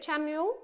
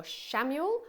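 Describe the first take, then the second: First: Chamuel with CH as in chair; CH pronunciation. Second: Shamuel with SH as in shop; SH pronunciation. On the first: Reader asks viewers the angel's name, Chamuel with CH. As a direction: start Chamuel on a clear CH. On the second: Reader asks viewers the angel's name, Shamuel with SH. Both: Shown as a demonstration. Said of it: "is it Chamuel or Shamuel".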